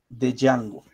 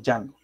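First: An audible D sound starts the name. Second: The name starts without a D sound. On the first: The speaker calls it wrong. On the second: The speaker calls it right.

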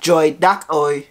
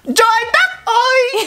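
First: It is said plainly, without drama. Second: It is said dramatically, with strong emphasis.

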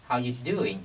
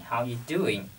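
No difference in how they are said.

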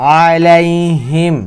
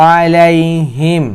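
The two takes are said the same way.

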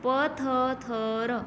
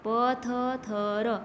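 No difference in how they are said.

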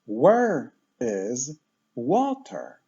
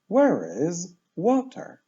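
First: The phrase is said slowly. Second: The phrase is said fast. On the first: "Najpierw pomału" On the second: "a później szybko"

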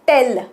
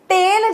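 First: The vowel is short, like 'e' in tell. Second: The vowel is long, like 'ay' in tail. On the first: It means to inform someone. The speaker calls it right. "आणि मी इकडे काय म्हणतेय, टेल, TELL" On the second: It sounds like the word for an animal's tail. The speaker calls it wrong. "टेल जेव्हा तुम्ही उच्चार करताय त्याचं spelling असं होतं TAIL"

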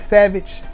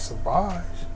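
First: It is said like the English word savage. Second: It is said the French way, so-vahzh. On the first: The speaker calls it wrong. "people always mispronounce it" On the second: The speaker calls it right. "I said, I got Sauvage"

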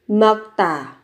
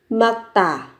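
The two takes are said the same way.

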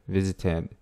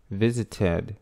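No difference in how they are said.

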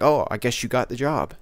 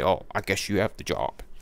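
First: It sounds warm and happy. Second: It sounds grudging and closed off.

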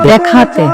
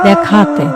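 Both takes have the same delivery.

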